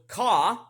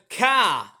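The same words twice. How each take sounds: First: It is said in a British accent. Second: It is said in an Australian accent. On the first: "that's British" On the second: "that's the Australian way of how we speak English"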